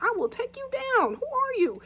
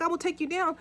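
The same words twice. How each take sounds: First: Threatening. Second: Said in the usual way. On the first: Retold or imitated. Husband threatens the intruder.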